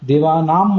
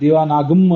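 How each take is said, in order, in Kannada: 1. ಈ ಪದ ಸರಳ m ಧ್ವನಿಯಲ್ಲಿ ಕೊನೆಗೊಳ್ಳುತ್ತದೆ. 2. ಈ ಪದ ಪೂರ್ಣ gam ಉಚ್ಚಾರಾಂಶದಲ್ಲಿ ಕೊನೆಗೊಳ್ಳುತ್ತದೆ. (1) "ದೇವಾನಾಂ ಅಂತ ಓದಬಾರ್ದು" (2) "ಗಮ್ ಅಂತ ಓದಬಾರ್ದು"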